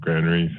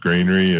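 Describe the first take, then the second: First: It is said with standard pronunciation. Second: It is said with a Utah drawl. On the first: The speaker calls it right. "probably in the more correct, correct pronunciation" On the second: The speaker calls it wrong. "probably in the Utah drawl"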